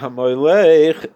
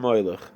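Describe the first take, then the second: First: The stress is on the syllable lech. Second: The stress is on the syllable moy. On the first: It means that he reigned. The speaker calls it right. "put the accent on the second syllable" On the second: It refers to the idol Molech. The speaker calls it wrong. "if you put the accent on the on the moy"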